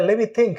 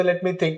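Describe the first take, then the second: First: "Let me" joined as lemme before think; casual lemme for "Let me"; silent T. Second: Said in the usual way. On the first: Shown as a demonstration. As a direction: drop the T in "Let me". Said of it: "टी totally silent हो जाएगा". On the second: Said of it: "In place of that".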